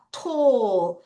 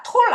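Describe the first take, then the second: First: "tall" drawn out with a crisp aspirated T; long falling "tall" led by a clean T; correct T sound. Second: "tall" as a short Korean-style tol; wrong version. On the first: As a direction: model "tall" slowly, long O vowel. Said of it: "T 발음할 때". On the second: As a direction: mistaken "tall", cut short inside the sentence. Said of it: "tall 아니야". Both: Shown as a demonstration.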